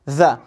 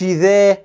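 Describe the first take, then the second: First: The vowel is kept very short. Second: The vowel is drawn out long. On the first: The speaker calls it right. "لا ذا ذا" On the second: The speaker calls it wrong. "ذا ما تطولش فيها ما تقولش ذا"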